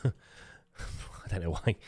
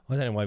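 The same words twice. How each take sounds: First: Slow, drawn-out, odd laughing voice; silly drawn-out voice. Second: Said in the usual way. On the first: Pretend. YouTuber mocking his own intro, slow silly voice. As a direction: stretch it out in a silly put-on voice. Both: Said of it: "I don't know why we spoke like that".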